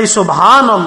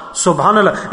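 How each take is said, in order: First: Subhanallah called out louder, with conviction; exclaimed Subhanallah. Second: Said in the usual way. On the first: Shown as a demonstration. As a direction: proclaim Subhanallah to the room.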